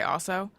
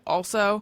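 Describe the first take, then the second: First: The L sound is dropped in fast speech. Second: The L sound is clearly pronounced. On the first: "if I'm saying it fast, I just say also" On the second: "I said also"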